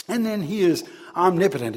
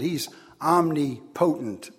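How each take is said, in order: First: Said in the usual way. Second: "omnipotent" slowly as om-ni-PO-tent, stress on PO; wrong stress on omnipotent. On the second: Shown as a demonstration. Preacher jokes to congregation, misplaced stress, slowed. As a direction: stretch out "omnipotent" with the stress on the third syllable. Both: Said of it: "if you want to put the emphasis in the wrong place".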